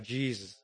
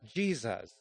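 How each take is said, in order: First: The two syllables are mumbled and run together. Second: Both syllables are pronounced clearly and separately. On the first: The speaker calls it wrong. "where we do a mumble" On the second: The speaker calls it right. "pronounce both syllables clearly and not run them together"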